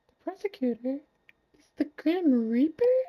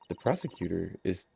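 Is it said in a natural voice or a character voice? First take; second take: character voice; natural voice. First: It is said in a put-on character voice. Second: It is said in the speaker's natural voice.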